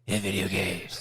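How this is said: It is said in a growly Batman voice.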